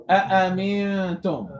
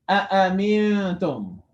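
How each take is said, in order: No difference in how they are said.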